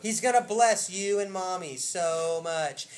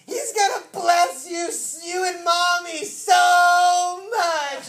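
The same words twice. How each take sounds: First: Slow, loud, evenly spaced delivery; emphatic slow repeat. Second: High, loud, drawn-out ecstatic shout; imitated hysterical child. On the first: Retold or imitated. Preacher repeating Isaac's blessing to congregation, slow and emphatic. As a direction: spell out each word with weight. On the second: Little Isaac telling Zach about the blessing, imitated hysterical excitement. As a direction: cry it out like an overjoyed little kid. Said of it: "hysterically laughing".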